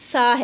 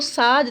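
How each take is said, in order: First: The consonant is a soft th sound. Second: The consonant is a whistling s sound. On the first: The speaker calls it right. "बल्कि ये सा है" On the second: The speaker calls it wrong. "Whistling sound जो सीन की है वो हम सा में देते हैं, तो वो सा नहीं है"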